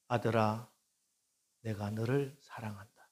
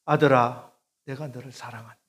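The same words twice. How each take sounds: First: Gentle voice of the Lord. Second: Calling voice of the Lord. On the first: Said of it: "주님의 음성이 들립니다". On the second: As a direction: call 아들아 out, then ease back. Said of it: "주님의 음성이었어요". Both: Acted.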